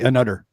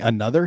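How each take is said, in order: First: It is said with a D, Montreal style. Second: It is said with a normal TH sound.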